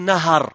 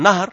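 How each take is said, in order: First: The h is followed by an a vowel. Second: The h has no vowel after it. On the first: The speaker calls it right. "Avec le fath" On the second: The speaker calls it wrong. "Sukun l'ha"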